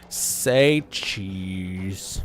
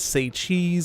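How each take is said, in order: First: It is said in a flat, bored voice. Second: It is said in a normal, lively voice.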